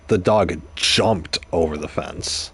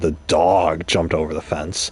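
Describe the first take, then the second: First: The stress is on "jumped". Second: The stress is on "dog".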